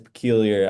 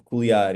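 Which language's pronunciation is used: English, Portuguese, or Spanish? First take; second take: English; Portuguese. First: The name is pronounced the English way. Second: The name is pronounced the Portuguese way. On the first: "In English, that's peculiar" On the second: "Like in Portuguese, it's like peculiar"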